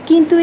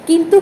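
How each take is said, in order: Both takes have the same delivery.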